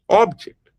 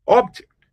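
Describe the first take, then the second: First: The stress is on the first syllable. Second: The same.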